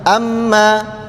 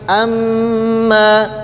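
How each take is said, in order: First: The m is short with no held nasal hum. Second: The m is held with a nasal hum for two counts. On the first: The speaker calls it wrong. "jangan amma" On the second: The speaker calls it right. "tapi amma"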